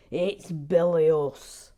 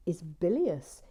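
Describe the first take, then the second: First: Loud, slow pompous bilious; imitating Gary Blair. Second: Said in the usual way. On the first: Mocking Gary Blair's verdict again. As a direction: lean on bilious like him. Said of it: "That's how he talks". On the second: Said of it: "said that the Green".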